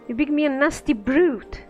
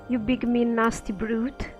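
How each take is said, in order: First: The word brute is strongly stressed. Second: The word brute carries no special stress.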